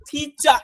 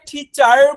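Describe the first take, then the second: First: The word ends on a vowel with no r. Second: The word ends with an audible r sound. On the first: The speaker calls it right. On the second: The speaker calls it wrong.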